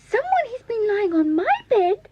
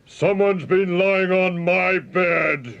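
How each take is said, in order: First: It is squeaked in a tiny, high voice. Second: It is roared in a deep, gruff voice.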